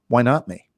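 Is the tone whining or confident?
confident. It is said confidently, with a smile.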